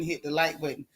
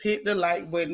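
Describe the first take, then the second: First: Softer and lower, almost a whisper; hushed. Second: Said in the usual way. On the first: Shown as a demonstration. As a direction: hush it like late-night gossip. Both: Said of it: "we gotta whisper while we gossip".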